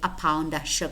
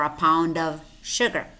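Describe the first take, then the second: First: The word 'of' is said without a v sound. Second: The word 'of' ends with a v sound. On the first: "the v is normally deleted" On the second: "is pronounced v"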